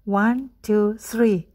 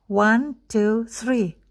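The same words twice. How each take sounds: The two takes are said the same way.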